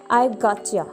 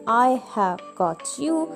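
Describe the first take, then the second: First: The words are contracted and run together. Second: Every word is said fully and separately. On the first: "you may use a contraction" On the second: "Instead of saying I have got you"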